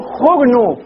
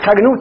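First: "خرنوب" with a u after kha, xurnub; damma on the kha. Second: "خرنوب" with an a after kha, xarnub; fatha on the kha. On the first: Teacher shows how the eloquent say it, "خرنوب" as xurnub with damma. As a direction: round the first vowel of "خرنوب" to u. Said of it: "يضمون الخاء". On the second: Teacher shows students the weaker reading, "خرنوب" said xarnub with fatha. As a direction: open the first vowel of "خرنوب" to a. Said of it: "وقد تفتح". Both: Shown as a demonstration.

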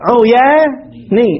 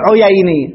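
First: "عياني" very slowly as uu-yaa, then nii; stretched correct form. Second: "عييني" as uyay-nii, with an ay glide; rejected form. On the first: Teacher corrects the form, "عياني" slow in broken syllables. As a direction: draw out the aa in "عياني", break before nii. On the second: Teacher shows what not to say, "عييني" with ay. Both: Shown as a demonstration. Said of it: "ما تقول عييني".

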